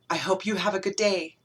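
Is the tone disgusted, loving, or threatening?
loving. It is said in a tender, loving tone. The speaker is secretly in love with the listener. "I've never been able to tell you that I'm actually in love with you"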